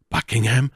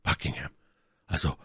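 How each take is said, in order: First: Aufgeregt ausgerufene Frage; höchst bewegt. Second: Leise und tief; gedämpfte Namensnennung. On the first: A narrator's reading. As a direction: den Namen bewegt, mit steigendem Ton rufen. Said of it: "rief Felton in höchster Bewegung". (in höchster Bewegung ausrufen) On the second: Acted. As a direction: den Namen verhalten fallen lassen. Erste, leise Nennung des Namens. (leise, tief gesprochen)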